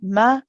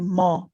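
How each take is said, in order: First: The vowel is a light, plain a sound. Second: The vowel is heavy and rounded toward o. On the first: The speaker calls it right. "keep the meme as a straight fatha sound" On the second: The speaker calls it wrong. "Be careful not to say mo"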